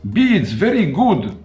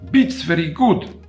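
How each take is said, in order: First: The first word ends with a voiced d sound. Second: The first word ends with a voiceless t sound. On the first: The speaker calls it right. "the way I pronounced the word beads was essentially more or less correct" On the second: The speaker calls it wrong. "that mispronunciation as being beats very good"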